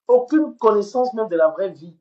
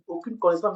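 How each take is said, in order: First: Loud, higher, hammering aucune; emphatic outburst. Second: Said in the usual way. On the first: Real, not acted. Ranting at a rival streamer, loud and emphatic. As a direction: slam every word home. Streamer berating a woman online.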